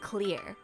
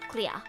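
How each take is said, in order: First: It is said in an American accent, with R. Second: It is said in an Australian accent, no R.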